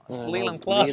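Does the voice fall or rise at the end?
fall. The voice falls at the end like a statement. The speaker states the name with certainty.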